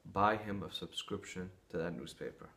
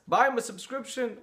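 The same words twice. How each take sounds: First: Lower, softer, unhurried counsel; lightly voiced wise rabbi, gently suggesting; calm advice. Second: Much higher, disbelieving repeat of the advice; incredulous echo. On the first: Rabbi gives calm surprising advice. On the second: Retold or imitated. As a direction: throw the words back in disbelief. Man shocked at rabbi's advice.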